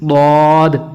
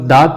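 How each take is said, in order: First: The letter uses the tongue's side against the molars. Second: The letter sounds like a plain d. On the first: The speaker calls it right. "जब ज़ुबान की करवट लगेगी तब हर्फ हाफिया सही अदा होगा। जैसे" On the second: The speaker calls it wrong. "दाद पढ़ेंगे तब भी गलत हो जाएगा"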